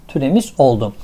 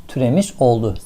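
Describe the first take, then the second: The two takes are said the same way.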